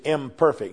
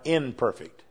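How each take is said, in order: First: The word begins with an 'im' sound. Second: The word begins with an 'in' sound. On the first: The speaker calls it right. "that word is imperfect" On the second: The speaker calls it wrong. "not imperfect"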